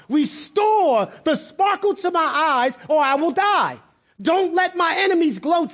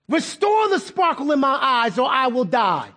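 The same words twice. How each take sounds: First: Desperate, not nice. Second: Said in the usual way. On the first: Acted. David facing death cries to God, high desperate demand. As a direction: plead urgently, without niceness. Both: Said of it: "He didn't say that nice to God".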